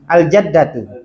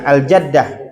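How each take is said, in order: First: The word ends with a full -tu vowel ending. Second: The word ends with a stopped h sound.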